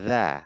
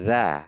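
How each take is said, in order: No difference in how they are said.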